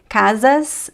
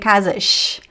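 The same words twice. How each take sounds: First: The final S is a plain s sound. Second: The final S is a sh sound. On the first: "instead of saying casas" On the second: "I'm speaking chiado with the sh sound"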